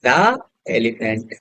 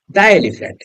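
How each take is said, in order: First: "the elephant" drawn out very slowly and lower, each sound stretched; slow spelled-out pronunciation. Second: Said in the usual way. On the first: Shown as a demonstration. Teacher to students, slowly modelling "the elephant".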